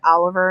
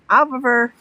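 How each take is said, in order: First: The name is said with a clear L sound. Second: The name is said without an L sound. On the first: "my one of my sons is named Oliver" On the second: "Like you don't have the L yet"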